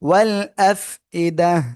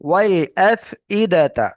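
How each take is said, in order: First: The word ends with a silent 'h', no 't'. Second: The word ends with a full 'ta' syllable. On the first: The reader stops on this word. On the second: The reading continues without stopping.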